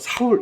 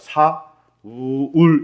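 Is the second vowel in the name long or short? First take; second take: short; long. First: The second vowel is kept short. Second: The second vowel is drawn out long. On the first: It suggests someone who walks with a swagger. "단음보다 좀 짧은 음으로 음역돼 있어요" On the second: It is the original biblical name. "우자를 좀 길게 발음해야 돼요"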